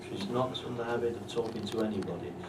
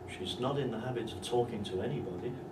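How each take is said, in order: First: The voice falls at the end. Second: The voice rises at the end. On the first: She talks to no one at all. "That means nobody" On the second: She does not talk to just anyone. "But if you use a full rise"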